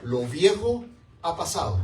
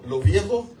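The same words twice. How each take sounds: First: Said in the usual way. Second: "Lo viejo" said louder and higher; preacher's ringing emphasis on "Lo viejo"; emphatic repeat. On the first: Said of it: "first reading of the verse". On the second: Shown as a demonstration. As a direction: punch "viejo" hard. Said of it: "repeats the quoted verse".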